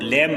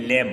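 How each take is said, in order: First: लैम with an audible B after the M; B sounded. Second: लैम with no B sound at the end; silent B. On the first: Teacher warns students off the wrong reading, लैम with B voiced. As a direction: punch लैम loudly, closing on a sounded B. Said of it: "लैम नहीं पढ़ते हैं". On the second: Teacher shows students how to read the word, लैम with silent B. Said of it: "pronunciation आपको बता रहा हूँ". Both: Shown as a demonstration.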